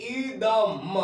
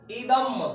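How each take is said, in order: First: इदम drawn out slowly, each sound held; slow demo reading. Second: Said in the usual way. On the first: Shown as a demonstration. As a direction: read इदम slowly for the class. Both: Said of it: "अब इसको पढ़ेंगे".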